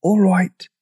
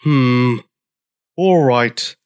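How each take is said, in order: First: High-pitched, voiced stage whisper; small high dinosaur voice; tiny meek voice. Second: Grudging, gruff agreement; grunting. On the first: Dinosaur agreeing to tiptoe, tiny meek voice. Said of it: "whispered the dinosaur". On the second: Old Triceratops giving in to newcomer, grunting. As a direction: grunt it reluctantly. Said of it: "grunted George". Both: A narrator's reading.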